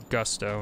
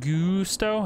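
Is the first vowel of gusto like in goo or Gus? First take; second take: Gus; goo. First: The first vowel is a short u sound. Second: The first vowel is a long oo sound. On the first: "as in Gus?" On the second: "as in goo?"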